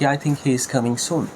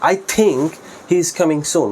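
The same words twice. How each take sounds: First: No word gets special stress. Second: The word think gets the stress. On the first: A plain statement that he is coming soon. "খুব সাধারণভাবে" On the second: It is only a belief that he is coming. "এই থিঙ্কের উপর একটু intonation স্ট্রেসটা বেশি দেয়"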